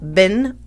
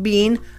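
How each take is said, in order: First: The word has a short 'i' vowel. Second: The word has a long 'ee' vowel. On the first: "in the United States, we pronounce it bin or ben" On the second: "the Brits pronounce it like that, bean"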